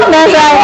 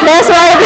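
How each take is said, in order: Both takes have the same delivery.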